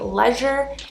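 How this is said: It is said in a British accent. "they say leisure"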